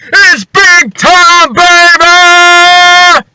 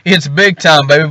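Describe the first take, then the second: First: It is said loudly, with big energy. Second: It is said flatly, without energy.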